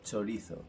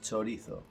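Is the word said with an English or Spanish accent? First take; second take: Spanish; Spanish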